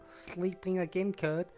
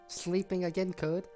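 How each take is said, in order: Both takes have the same delivery.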